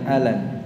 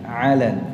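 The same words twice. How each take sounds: First: The word starts with a plain vowel. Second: The word starts with a throaty ain sound. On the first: The speaker calls it wrong. "Bukan alan" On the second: The speaker calls it right.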